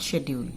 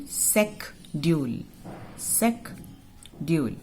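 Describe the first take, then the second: First: "schedule" with SH at the start, no K; outdated sh pronunciation. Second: "Secdule" split after the K for repeating; hard K, syllable by syllable. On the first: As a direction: say "schedule" as "shed-yool". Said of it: "not schedule". ("schedule" को "शेड्यूल" बोलें) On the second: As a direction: say "Secdule" slowly as "sek... dyool". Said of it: "Pronounce with me". ("Secdule" को धीरे "सेक... ड्यूल" बोलें) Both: Shown as a demonstration.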